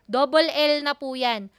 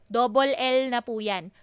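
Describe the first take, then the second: Both takes have the same delivery.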